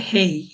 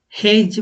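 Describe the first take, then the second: First: হেই ending in a gliding "ee", no J. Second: হেইজ ending in an English J consonant; hard J ending. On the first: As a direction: let হেই glide into "ee". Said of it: "বলবে হেই". (হেই, শেষে জ-এর বদলে ই ধ্বনি) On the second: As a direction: sound the J at the end of হেইজ. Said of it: "এখানে হেইজ বলবে না". (হেইজ, শেষে জ ধ্বনি দিয়ে ভুল উচ্চারণ) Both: Shown as a demonstration.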